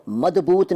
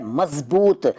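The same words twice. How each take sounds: First: मजबूत said "madboot". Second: Said in the usual way. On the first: Shown as a demonstration. Teacher showing the rejected form, मजबूत with d for z. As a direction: put a d for the z in मजबूत. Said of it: "नहीं कहते". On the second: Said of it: "इसको मजबूत नहीं कहते".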